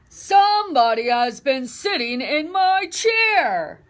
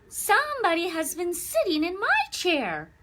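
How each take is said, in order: First: It is said in a deep, big voice. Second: It is said in a medium-sized voice.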